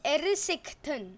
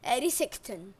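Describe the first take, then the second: First: Erisecton said as "ERR-isicton", stress on the first syllable; corrected pronunciation. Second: Erisecton said as "arisicton", stress up front; first guess at the name. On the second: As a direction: Erisecton with an AH start, falling. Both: Shown as a demonstration. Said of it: "I think it's pronounced".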